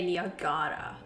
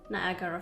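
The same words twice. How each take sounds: First: Niagara is pronounced the Croatian way. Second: Niagara is pronounced the English way.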